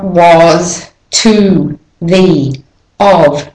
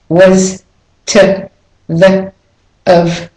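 First: The small words are fully pronounced with clear vowels. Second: The small words are reduced with weak vowels. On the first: The speaker calls it wrong. "so it's not" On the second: The speaker calls it right. "They're not said clearly. They have the schwa"

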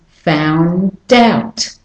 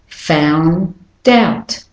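No difference in how they are said.

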